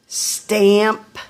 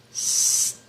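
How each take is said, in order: First: Said in the usual way. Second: Stamp breathed out slowly, sounds pulled apart; whispered slow motion. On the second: Shown as a demonstration. Teacher sounding out Stamp in slow motion. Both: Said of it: "I'll say it in slow motion".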